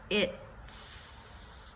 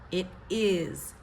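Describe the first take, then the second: First: It is squeezed into one short syllable. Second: It is said as two full separate words.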